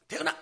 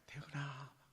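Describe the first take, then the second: First: The name is called sharply and angrily. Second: The name is called softly and calmly.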